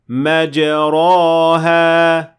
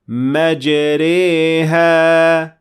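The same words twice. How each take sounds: First: The vowel after r sounds like a. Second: The vowel after r sounds like e. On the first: The speaker calls it wrong. "That is an alif, so it is not correct" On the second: The speaker calls it right. "Notice that we said"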